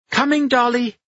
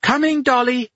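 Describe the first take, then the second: First: Loud high call back. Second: Loud high yell back. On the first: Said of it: "Anna cried". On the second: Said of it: "Anna yelled back". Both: A narrator's reading.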